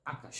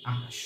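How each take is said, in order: First: Said in the usual way. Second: আকাশ said softly, broken into syllables; soft spoken demo. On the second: Shown as a demonstration. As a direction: quietly sound out আকাশ syllable by syllable. (নরম স্বরে আকাশ উচ্চারণ) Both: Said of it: "একটি শব্দ লিখলাম".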